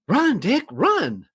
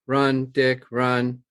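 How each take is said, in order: First: It is read with excitement and lively inflection. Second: It is read flatly without any excitement.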